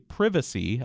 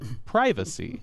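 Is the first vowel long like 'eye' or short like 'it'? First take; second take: short; long. First: The first vowel is a short 'i' sound. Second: The first vowel is a long 'eye' sound. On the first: "the British say privacy, even though they use the long I on primer and on the word private" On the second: "Americans say primer, but they say privacy"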